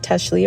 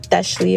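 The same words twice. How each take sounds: First: The name is said with English sounds. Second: The name is said with Spanish sounds. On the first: "I go by Teshley" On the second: "or Teshley if you speak Spanish"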